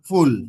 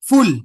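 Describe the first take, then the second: First: The vowel is thin and short. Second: The vowel is broad and drawn out. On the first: The speaker calls it right. "আমি কি বলছি ফুল" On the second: The speaker calls it wrong. "এভাবে বলছি না"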